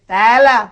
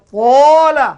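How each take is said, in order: First: The vowel is light and thin, like 'a'. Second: The vowel is thick and heavy, like 'o'. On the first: The speaker calls it wrong. "Jangan baca kalau tala kita baca tala" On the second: The speaker calls it right. "Kena baca tola"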